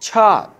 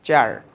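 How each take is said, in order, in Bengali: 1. প্রথম ধ্বনিতে জোরালো বাতাসের ঝলক আছে। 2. প্রথম ধ্বনিতে কোনো বাতাসের ঝলক নেই। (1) "উচ্চারণটা কি হবে দেখো চার্চ" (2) "আমরা বলি হলো চার্চ"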